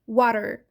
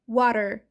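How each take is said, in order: Both takes have the same delivery.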